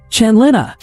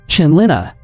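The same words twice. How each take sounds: First: Second call pitched much higher; impatient call, much higher; calling out louder. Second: First call through the flat; calling out, a little raised. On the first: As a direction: call her name again, higher and more urgent. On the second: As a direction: call her name out. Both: A narrator's reading. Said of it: "started calling out".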